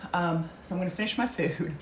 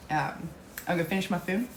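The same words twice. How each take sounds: First: Eating while talking; mouth full. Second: Chewing while talking; mouthful of food, words round it; mouth full. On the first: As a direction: talk through a mouthful. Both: Real, not acted. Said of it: "You're talking while you're eating".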